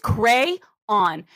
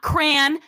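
First: It is said as two syllables, cray-on. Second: It is said as one syllable, like cran. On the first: The speaker calls it right. "it is crayon" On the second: The speaker calls it wrong. "not crayon ... It is not C-R-A-N"

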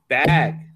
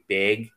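First: Bag is said with the standard vowel. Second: Bag is said with a regional vowel. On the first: The speaker calls it right. "no, no, no, it's bag" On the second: The speaker calls it wrong. "people were saying bag"

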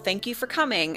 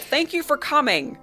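First: It is said in the speaker's ordinary voice. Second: It is said in an imitated character voice. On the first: The speaker calls it wrong. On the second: The speaker calls it right.

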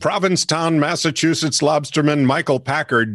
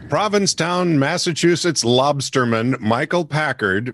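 First: It is said at normal speed. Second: It is said more slowly.

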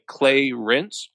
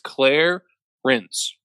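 First: The first syllable sounds like 'clay'. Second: The first syllable sounds like 'clair'. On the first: The speaker calls it wrong. "I don't think you pronounce it like Clay Rinse" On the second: The speaker calls it right. "I think it's Claire Rinse"

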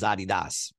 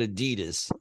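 First: It is said the original German-style way. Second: It is said the everyday anglicized way. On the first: This is the original pronunciation of the name. "the actual pronunciation is Adidas" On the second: This is how people commonly say it. "we call it Adidas"

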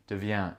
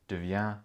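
Both takes have the same delivery.

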